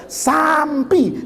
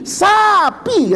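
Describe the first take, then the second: First: "sampi" drawn out with an intruding "m"; failed "sampi". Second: High, stretched "sapi" with no "m"; corrective "sapi". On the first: Student failing the drill, long "sampi" with an "m". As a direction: stretch "sampi", keeping the wrong "m". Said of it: "Nggak bisa dia". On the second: Teacher correcting the student once more, high long "sapi" without "m". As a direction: pitch "sapi" up, both syllables long and clean of "m". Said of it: "Mana M-nya". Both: Retold or imitated.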